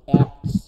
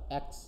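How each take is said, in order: First: অ্যাক্টস pressed out loud with the T sounded; forced full T. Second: অ্যাক্স said short, with no T before the S; T dropped. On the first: Teacher shows the effort of keeping T, forced অ্যাক্টস. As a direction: hit the T hard in অ্যাক্টস. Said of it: "পুরো চাপায়ে বলতে হচ্ছে". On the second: Teacher shows students the everyday elision, T-less অ্যাক্স. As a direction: drop the T, just অ্যাক্স. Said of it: "অ্যাক্সকে অ্যাক্স বলে দিচ্ছি আমরা". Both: Shown as a demonstration.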